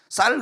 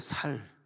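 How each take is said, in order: First: The word starts with a tense s sound. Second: The word starts with a plain s sound. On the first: "쌀 그래봐 안 돼" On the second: "경상도는 ... 쌀 발음이 안 되니까 살"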